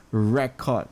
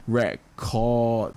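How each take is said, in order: First: "record" with a long, strong "re"; RE-cord, the noun stress; first-syllable stress. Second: "record" with a long, strong "cord"; re-CORD, the verb stress; very slow, weight on the "cord" of "record"; second-syllable stress. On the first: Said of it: "the re is being emphasized here". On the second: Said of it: "The chord is being emphasized". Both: Shown as a demonstration.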